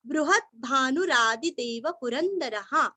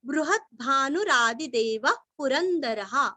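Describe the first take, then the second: First: बृहद् stressed, then भानुरादिदेव run together as one word; sandhi joined reading. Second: बृहद् stressed, then भानुरादिदेव run together as one word; बृहद् भानुरादिदेव पुरंदरः flowing in one breath; sandhi joined reading. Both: Shown as a demonstration. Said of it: "ये हो गया संधि करके".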